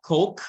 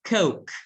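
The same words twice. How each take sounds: First: The vowel is a single pure sound. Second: The vowel glides as a diphthong. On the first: The speaker calls it wrong. "it's not coke bacanya" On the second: The speaker calls it right. "it should be coke... Jadi ada o suaranya"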